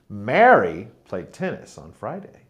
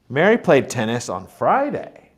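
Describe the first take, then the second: First: The word Mary is stressed. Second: The word Friday is stressed. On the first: It was this person and not someone else. "it was Mary who played tennis, not Peter" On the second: It was this day and not the usual one. "Mary played tennis on Friday, not Saturday, like usual"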